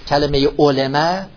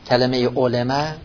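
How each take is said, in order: The two takes are said the same way.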